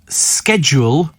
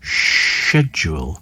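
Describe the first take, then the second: First: It is pronounced the American way. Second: It is pronounced the British way.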